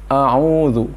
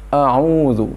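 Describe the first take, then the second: Both takes have the same delivery.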